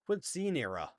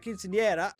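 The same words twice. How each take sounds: First: It is said with an American English pronunciation. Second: It is said with a Spanish pronunciation.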